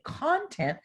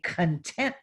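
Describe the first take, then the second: First: The stress is on the first syllable. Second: The stress is on the second syllable. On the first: Materials and belongings. "that means your materials and your belongings" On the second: Feeling happy and satisfied. "where they accent the second syllable"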